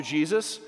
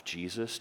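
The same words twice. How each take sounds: First: A fervent, lifted "Jesus"; impassioned Jesus. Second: A quiet, almost casual "Jesus" with a lift at the end; soft Jesus. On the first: Peter surrendering everything to Jesus, fervent. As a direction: call out "Jesus" louder with a rising end. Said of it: "Peter replied". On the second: Peter casually addressing Jesus, said softly. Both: Pretend.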